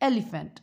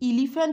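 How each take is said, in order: First: It begins with an 'eh' vowel sound. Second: It begins with an 'ee' vowel sound. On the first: The speaker calls it right. "না এলিফ্যান্ট" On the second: The speaker calls it wrong. "আমি কি ইলিফ্যান্ট বললাম না"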